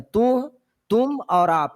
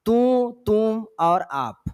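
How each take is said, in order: First: Said in the usual way. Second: Slow, each word set apart; slow listing. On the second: Shown as a demonstration. Teacher listing pronoun forms for the class, slow and deliberate. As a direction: spell out the three forms slowly for students.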